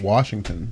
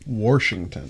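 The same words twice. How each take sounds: First: It is said in a standard accent. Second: It is said in a southwestern Pennsylvania accent. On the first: "instead of saying Washington" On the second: "we say Washington"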